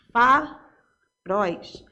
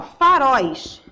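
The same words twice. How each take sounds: First: "Faróis" very slow and lower, in two pieces; syllable by syllable. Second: Said in the usual way. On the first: Shown as a demonstration. Teacher showing the last syllable, "Faróis" said slowly in separated syllables. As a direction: split "Faróis" into fa, róis with a pause. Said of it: "A última sílaba é pronunciada". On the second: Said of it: "é a última sílaba".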